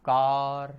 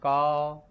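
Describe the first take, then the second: First: कार with a clear r at the end after the long a; American car. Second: का said as a long open "kaa" with no r sound; British car. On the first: Teacher demonstrating how American English says car. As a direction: sound the r in कार, American style. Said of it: "जबकि यहाँ पे इसका उच्चारण होगा क्या". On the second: Teacher demonstrating how British English says car. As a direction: drop the r fully in का, British style. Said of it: "इसका उच्चारण होगा आपके". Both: Shown as a demonstration.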